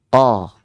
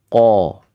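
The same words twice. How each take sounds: First: The syllable is said without rounding the lips. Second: The syllable is said with rounded lips. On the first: The speaker calls it right. "Cukup ko" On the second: The speaker calls it wrong. "tidak perlu ko"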